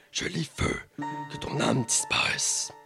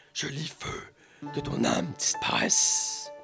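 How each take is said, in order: The two takes are said the same way.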